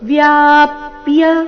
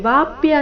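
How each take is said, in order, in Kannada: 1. ಮೊದಲ ಉಚ್ಚಾರಾಂಶ v ಜೊತೆಗೆ y ಸೇರಿ ಆರಂಭವಾಗುತ್ತದೆ. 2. ಮೊದಲ ಉಚ್ಚಾರಾಂಶ ಸರಳ v ನಿಂದ ಆರಂಭವಾಗುತ್ತದೆ. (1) "ವ ಅಧಿಕ ಯಾ ಸೇರಿ ವ್ಯಾ" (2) "ಇಲ್ಲಿ ವಾಪ್ಯ ಅಂತ ಇಲ್ಲ"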